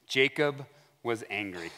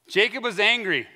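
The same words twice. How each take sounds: First: Said in the usual way. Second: ANGRY hit hard, higher-pitched; "angry" driven home for emphasis; emphatic restatement. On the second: Real, not acted. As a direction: repeat it with punch on "angry". Repeats the statement with emphasis.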